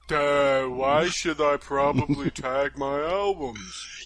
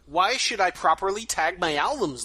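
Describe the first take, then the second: First: It is said in a dopey duh voice. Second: It is said in a normal voice.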